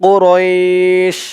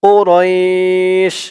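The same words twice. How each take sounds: Both takes have the same delivery.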